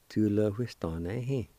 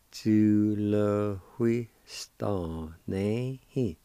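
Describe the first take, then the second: First: Said in the usual way. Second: Very slow, each syllable separate. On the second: Shown as a demonstration. Teacher slowly pronouncing a word for students. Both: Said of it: "It's pronounced like this".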